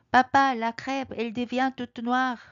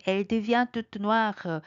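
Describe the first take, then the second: First: Put-on high, slow alarmed child; little bear alarmed about the crepe; cub crying out. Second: Each syllable drawn out slowly; slow French model; slow teaching read. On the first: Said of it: "아기 곰이 갑자기 외칩니다". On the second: Shown as a demonstration. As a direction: spell it out for learners. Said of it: "slow teaching read".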